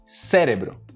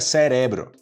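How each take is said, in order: First: The first E is strong and open. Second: The first E is weak and unstressed. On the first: The speaker calls it right. "esse som mais de E, né? Mais forte" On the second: The speaker calls it wrong. "se eu tirar o E, fica cerebro"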